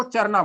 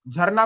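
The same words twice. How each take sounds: First: "चरना" for झरना, opening with च instead of झ; child's sound substitution. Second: Said in the usual way. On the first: Shown as a demonstration. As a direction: say "चरना" with च replacing the झ. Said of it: "बोलना है झ, बोलना है च". ("चरना" में झ की जगह च बोलें) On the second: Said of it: "झरना को चरना बोलना".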